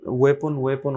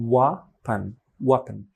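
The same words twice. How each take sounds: First: "ওয়েপন" with a full "pon" ending; "ওয়েপন" as many learners say it, full o; common mispronunciation. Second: "ওয়াপন" with stressed first syllable and short "pun"; "ওয়াপন" as WEH-pun, reduced last vowel; weak second syllable. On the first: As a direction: say "ওয়েপন" as way-PON, unreduced last vowel. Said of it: "অনেকে বলে". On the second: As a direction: say "ওয়াপন" with a small, barely aspirated p. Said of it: "but হবে". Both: Shown as a demonstration.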